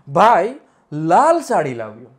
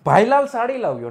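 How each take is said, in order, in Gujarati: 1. ટૂંકો વિરામ પહેલા શબ્દને બે ભાગમાં વહેંચે છે. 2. પહેલો શબ્દ કોઈ વિરામ વગર બોલાય છે.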